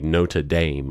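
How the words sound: The name is said with an American pronunciation. The speaker calls it wrong. "in America, a lot of people say Notre Dame"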